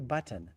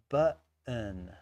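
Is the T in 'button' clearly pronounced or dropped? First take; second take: clear; dropped. First: The T sound is clearly pronounced. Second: The T sound is dropped or swallowed. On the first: This is the traditional pronunciation. The speaker calls it right. "They don't say button" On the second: This is how younger podcasters say it. The speaker calls it wrong. "they say button"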